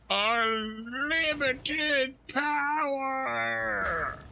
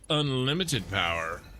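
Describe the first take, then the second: First: It is said in a dramatic put-on voice. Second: It is said in his normal voice.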